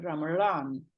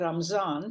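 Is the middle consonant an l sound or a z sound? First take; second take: l; z. First: The middle consonant is an l sound. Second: The middle consonant is a z sound. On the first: This is the form used along the southern coast. "you turn it into a L" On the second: This is the form that came inland from Central Asia. "people saying Ramzan"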